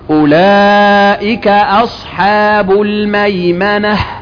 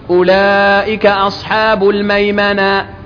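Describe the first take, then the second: First: The last word ends with an audible breathy h. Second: The last word ends without an audible h. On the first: The speaker calls it right. "الهمس خلاها ينطق إيه؟ الهاء" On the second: The speaker calls it wrong. "ميمنة إيه؟ فين الهاء؟ مفيش"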